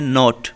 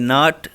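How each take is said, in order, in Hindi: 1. यह शब्द ब्रिटिश उच्चारण में कहा गया है। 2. यह शब्द अमेरिकी उच्चारण में कहा गया है। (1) "जो ब्रिटिश है वो इसे कहते हैं" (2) "जो अमेरिकन है वो इसे कहेंगे"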